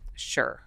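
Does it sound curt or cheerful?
curt. It is said flatly and curtly.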